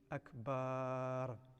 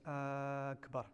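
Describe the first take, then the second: First: The last syllable is drawn out. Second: The first syllable is drawn out. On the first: It means a drum. "Do not lengthen the bar" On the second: It asks whether God is the greatest. "To lengthen the alif of akbar"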